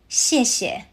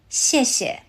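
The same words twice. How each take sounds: The two takes are said the same way.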